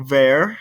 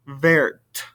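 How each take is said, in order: First: "vert" said with no final T, like "vair"; "vert" with a silent T; masculine vert. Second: "vert" said with the T sounded, like "vairt"; "vert" with the T pronounced; feminine verte. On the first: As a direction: say "vert" and drop the T. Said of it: "I don't hear the T over here". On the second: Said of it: "but I do over here". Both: Shown as a demonstration.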